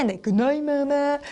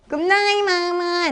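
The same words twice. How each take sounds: First: Softer answering goodnight; understated second storybook voice. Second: High, sing-song goodnight; high little storybook voice; little monkey. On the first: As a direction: answer gently, well below the little monkey. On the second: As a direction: chirp it high like a small monkey. Little monkey puppet says goodnight. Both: Shown as a demonstration.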